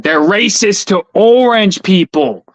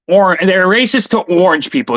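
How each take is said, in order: First: Louder, slower, leaning on "orange"; emphatic slow repeat. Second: Said in the usual way. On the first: Shown as a demonstration. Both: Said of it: "Just remember that".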